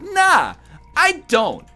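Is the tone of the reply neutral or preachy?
preachy. The reply sounds judgmental and preachy. The asker is being judged for smoking. "my tone was like, did you know that cigarettes cause cancer?"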